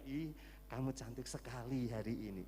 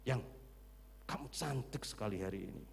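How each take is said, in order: First: It is said gently and tenderly. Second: It is barked harshly like a soldier.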